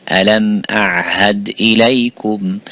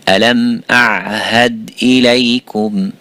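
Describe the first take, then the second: The two takes are said the same way.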